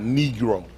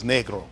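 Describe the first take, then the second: First: "negro" with a long ee, NEE-gro; English pronunciation. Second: "negro" with a short e, NEG-ro; original non-English pronunciation. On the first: Teacher showing how English changes the word, long-ee negro. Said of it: "but it's not English". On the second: Teacher correcting the English version, short-e negro. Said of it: "It's not negro". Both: Shown as a demonstration.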